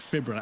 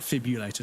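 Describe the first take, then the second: First: The second syllable is said with an r sound. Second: The second syllable is said without an r sound. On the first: The speaker calls it right. "Sorry, fibrillator" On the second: The speaker calls it wrong. "not fibulator"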